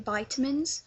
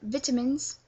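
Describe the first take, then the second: First: It is said in an American accent. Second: It is said in a British accent. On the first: "we don't say vitamins" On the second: "we say vitamins"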